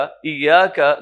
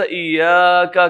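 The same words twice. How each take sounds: First: ایاکا with its long a held for two counts; ایاکا at correct two-count length. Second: ایاکا with its long a dragged to three counts, slowed; ایاکا stretched past its proper length; overstretched madd. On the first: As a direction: say ایاکا with the madd held just two beats. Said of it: "دو حرکت کرنا تھا". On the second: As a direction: pull the a of ایاکا too long, three beats. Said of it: "تین حرکت کر دیا". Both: Shown as a demonstration.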